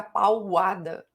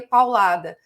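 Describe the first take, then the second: First: Pauada drawn out slowly as pau-ada, with no L between the vowels; awkward pauada. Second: Said in the usual way. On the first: Shown as a demonstration. Teacher shows students the clumsy pauada, slow and stumbling. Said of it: "Tenta falar pauada. É difícil". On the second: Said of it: "Tenta falar pauada".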